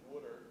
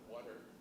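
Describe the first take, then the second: First: It is said in a Pennsylvania accent. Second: It is said in a standard accent. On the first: "I still speak with my northern accent. I still say water" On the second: "instead of water"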